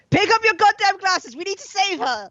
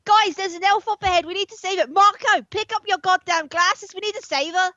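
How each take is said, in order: First: High, urgent in-character shout. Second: Put-on high, urgent, wobbly Australian accent; badly faked Australian accent, calling out urgently; attempted Australian accent. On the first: Acted. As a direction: shout an order at your companion, pitched up. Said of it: "while shouting at Marco". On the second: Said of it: "work into the voice".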